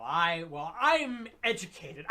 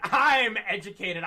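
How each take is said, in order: First: Haughty snob. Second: Laughing mockery. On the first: Retold or imitated. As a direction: sneer it like a know-it-all. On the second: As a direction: laugh through the snob line, louder. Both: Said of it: "that haughty".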